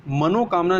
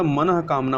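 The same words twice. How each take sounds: First: मनोकामना with long o after n; rejected form. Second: मनः कामना with breathed h after mana; correct form. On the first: Teacher rejects this spelling, मनोकामना with "no". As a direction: say मनोकामना as "mano-kamna". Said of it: "मनोकामना नहीं होता". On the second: Teacher corrects for learners, मनः कामना with visarga. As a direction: say मनः कामना as "manah kamna". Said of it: "मनः कामना होता है". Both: Shown as a demonstration.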